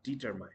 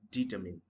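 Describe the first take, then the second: First: Determine ending like "mine"; mispronounced determine. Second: Determine ending in short "min"; correct pronunciation. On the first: Teacher showing what not to say, determine as "-mine". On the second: Teacher contrasting with the mistake, determine with short "min". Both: Shown as a demonstration. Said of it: "not determine".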